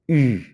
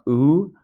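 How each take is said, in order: First: The vowel is a tight ee with rounded lips. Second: The vowel is a loose, English-like oo sound. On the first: The speaker calls it right. "very tight U sound um, that's like an E with your lips rounded" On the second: The speaker calls it wrong. "So it's not U"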